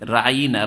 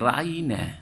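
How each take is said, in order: First: The word is said with extra pressure. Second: The word is said plainly without extra pressure.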